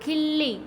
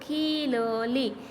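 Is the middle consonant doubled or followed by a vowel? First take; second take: doubled; vowel. First: The middle consonant is doubled without a vowel. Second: The middle consonant is followed by a vowel. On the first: "અડધો બોલીએ તો" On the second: "આખો બોલી તો"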